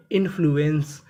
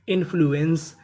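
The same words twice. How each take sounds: The two takes are said the same way.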